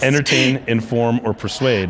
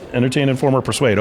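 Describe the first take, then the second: First: The phrase is said slowly. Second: The phrase is said quickly. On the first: The speaker calls it right. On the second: The speaker calls it wrong.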